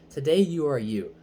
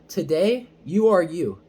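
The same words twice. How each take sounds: First: It is said at a quieter, normal volume. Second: It is said loudly.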